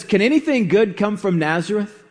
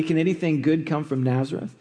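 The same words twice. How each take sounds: First: Said in the usual way. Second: Quick, dry, mildly scoffing question; sarcastic. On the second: Acted. Nathanael scoffing to Philip about Nazareth, lightly sarcastic. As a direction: toss it off with a light sneer at the small town. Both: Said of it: "Nathanael says sarcastically".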